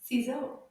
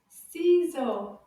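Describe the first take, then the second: First: Ciseaux quick and joined up; shorter, easier Ciseaux; a bit faster. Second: Ciseaux slow and loud, both syllables drawn out; loud, measured Ciseaux; slower take. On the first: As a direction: say Ciseaux briskly, without stretching. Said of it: "a little bit faster". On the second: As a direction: stretch Ciseaux for learners to copy. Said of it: "Now a little bit faster". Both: Shown as a demonstration.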